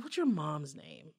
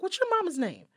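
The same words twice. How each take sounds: First: Low, slow, quiet question; cool confrontation. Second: Higher-pitched, pointed question; insistent repeat. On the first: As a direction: ask it with controlled menace. First asking, confronting the man. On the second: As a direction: repeat it to someone who missed it. Repeats question after his Huh. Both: Acted.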